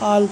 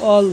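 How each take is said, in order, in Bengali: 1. স্বরধ্বনিটি একটি খোলা 'ah' ধ্বনি। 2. স্বরধ্বনিটি একটি গোলাকার 'aw' ধ্বনি। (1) "আমরা কিন্তু আল করি না" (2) "অল বলি, সরু অ অল বলি"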